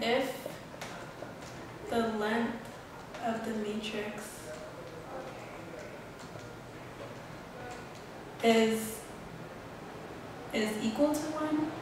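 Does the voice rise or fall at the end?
rise. The voice rises at the end like a question.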